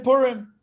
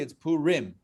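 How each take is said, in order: First: The word is pronounced quickly and casually. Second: The word is pronounced carefully and fully. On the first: This is how most people say it in everyday speech. "But people say Purim" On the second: This is the technically correct form. "If you want to really pronounce it the way it's uh, the way it's supposed to be"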